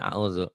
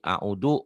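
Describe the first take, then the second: First: The middle consonant is a voiced dh-like sound. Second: The middle consonant is a plain d sound. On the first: The speaker calls it right. "Harusnya auzu" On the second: The speaker calls it wrong. "audu orang Sunda"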